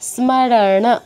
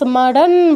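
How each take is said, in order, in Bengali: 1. শেষের ন-এর পরে একটি পূর্ণ স্বর আছে। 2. শব্দটি শুধু ন ব্যঞ্জন দিয়ে শেষ হয়। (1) "ন এর পূর্ণ উচ্চারণ করতে হবে" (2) "এটাকে কিন্তু আবার স্মরণ বললে হবে না"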